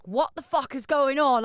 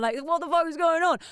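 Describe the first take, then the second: First: Said in the usual way. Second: Hammed-up disbelief; mild imitation of an exasperated Gaz; mock exasperation. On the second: Gaz detained in customs.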